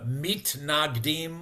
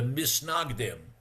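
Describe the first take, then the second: First: The word has a t sound before the n. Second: The word has an s sound before the n. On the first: This is the Hebrew pronunciation. "either in Hebrew" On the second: This is the Yiddish pronunciation. "or in Yiddish"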